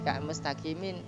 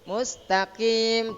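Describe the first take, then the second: First: The word ends with an added vowel and nasal. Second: The word ends abruptly on a silent final consonant. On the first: The speaker calls it wrong. "tidak di mustaqimin tapi dimatikannya" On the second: The speaker calls it right.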